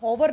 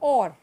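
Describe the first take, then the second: First: The word begins with an h sound. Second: The word begins directly with a vowel sound. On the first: The speaker calls it wrong. "हॉवर नहीं बोलेंगे" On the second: The speaker calls it right. "एच is silent हेयर"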